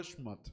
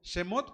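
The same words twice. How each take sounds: First: "Shmot" as one syllable, no e after Sh; "Shmot" with the consonants joined; more correct form. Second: "Shemot" with an e after the Sh; "Shemot", vowel sounded between Sh and m; acceptable variant. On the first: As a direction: run the Sh straight into m in "Shmot". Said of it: "pero es más correcto". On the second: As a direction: say "Shemot" in two full syllables, she-MOT. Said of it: "podría ser correcto". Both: Shown as a demonstration.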